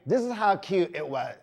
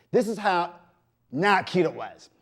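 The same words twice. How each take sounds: First: Said in the usual way. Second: Whisper. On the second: Shown as a demonstration. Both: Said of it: "it's kinda like".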